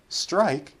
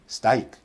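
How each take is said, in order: First: All three opening consonants are said together without vowels. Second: The r sound is left out of the cluster. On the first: This is how a native speaker says it. "how a native speaker would say it" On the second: A non-native speaker drops a consonant. "they're just eliminating"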